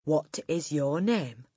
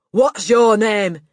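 First: Measured question at normal volume; slow, controlled question. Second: Loud, higher, slow bark; barked question. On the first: Headmistress asking the boy again, slow and controlled. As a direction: spell it out slowly, holding back. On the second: Headmistress demanding a small boy's name, barked. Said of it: "she barked". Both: A narrator's reading.

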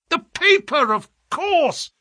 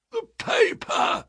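First: High-pitched burst of excitement; excited yell. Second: Slow, high, strangled croak. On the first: Holmes realises what he missed, yelling excitedly. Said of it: "yelled Holmes in a paroxysm of excitement". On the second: Revived man behind them, croaking. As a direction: croak it out with barely any voice. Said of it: "croaked a voice behind us". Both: A narrator's reading.

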